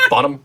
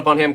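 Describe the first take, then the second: First: Bonham said as BON-um, H dropped; silent H. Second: Bonham said as BON-ham; H pronounced. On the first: Shown as a demonstration. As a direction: say Bonham with no H sound. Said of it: "Stop pronouncing the H in her name". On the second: Real, not acted. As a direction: sound the H in Bonham. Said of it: "stop pronouncing the H".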